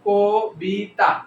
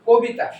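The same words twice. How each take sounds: First: The word is split with breaks between its syllables. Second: The word is said in one breath without breaks. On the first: "আমি যখন কবিতা ক বলে থামলাম, বি বলে থামলাম" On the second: "কবিতাকে আমি একসাথে বলতে পারি"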